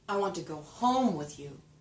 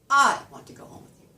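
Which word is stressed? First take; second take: home; I. First: The word home is stressed. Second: The word I is stressed.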